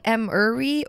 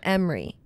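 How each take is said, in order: First: The name is spaced out into three syllables. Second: The name is run together in two syllables.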